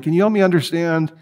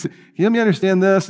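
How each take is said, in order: First: Said in the usual way. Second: Higher-pitched, quick, polite British plea; polite British scientist. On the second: Retold or imitated. British biologist asking his debate opponent for help, mock-polite. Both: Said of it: "He's British. He's very polite".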